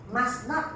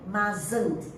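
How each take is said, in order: First: Two separate words are said in full. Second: The words are joined into one contracted word.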